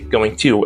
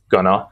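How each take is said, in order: First: Both words are said fully and separately. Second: The words are squeezed into one short word. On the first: "And we don't say going to as gonna" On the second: "And we don't say going to as gonna"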